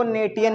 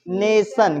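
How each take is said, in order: First: नेटियन read literally as nay-tee-yun; mispronunciation demo. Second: नेशन said as NAY-sun, tion as one syllable; correct pronunciation. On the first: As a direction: sound the t hard in नेटियन, adding a "ti-yun" ending. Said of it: "इसको नेटियन नहीं पढ़ेंगे". (नेटियन को गलत पढ़ें, "टि-यन" अलग सुनाई दे) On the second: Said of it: "इसको क्या पढ़ेंगे?". (नेशन में टीआईओएन को "सन" बोलें) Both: Shown as a demonstration.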